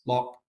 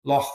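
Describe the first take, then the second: First: Loch ending in a hard k, like lock; working-class Glasgow pronunciation. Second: Loch with a rasped Scottish ch at the end; middle-class Glasgow pronunciation. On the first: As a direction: close loch with a k stop. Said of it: "Working class". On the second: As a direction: end loch on a throaty fricative, not a k. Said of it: "will say things like loch". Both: Shown as a demonstration.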